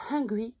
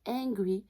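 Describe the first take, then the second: First: «Hungry» with an audible breathed H; pronounced H. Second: «Angry» starting straight on the vowel. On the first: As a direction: start «Hungry» on a puff of air. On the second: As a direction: open «Angry» without any puff of air. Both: Shown as a demonstration. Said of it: "la seule chose qui différencie deux mots".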